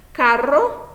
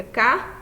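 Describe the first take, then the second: First: Carro said brightly with a rolled double R, one syllable break; Spanish trilled carro. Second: Said in the usual way. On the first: Shown as a demonstration. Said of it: "os dois L's ficam aí juntinhos". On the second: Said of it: "fica carro".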